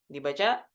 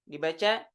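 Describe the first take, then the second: The two takes are said the same way.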